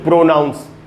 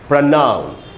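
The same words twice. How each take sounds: First: The stress is on the first syllable. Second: The stress is on the second syllable. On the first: The speaker calls it wrong. "न कि" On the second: The speaker calls it right. "Stress syllable में second syllable पे है"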